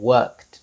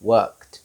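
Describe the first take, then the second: First: The ending is said as a short 't' sound. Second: The same.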